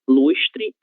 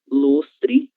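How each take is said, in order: First: The s before t sounds like sh. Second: The s before t sounds like s. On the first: "o som parecido com a letra X" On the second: "o som da própria letra S"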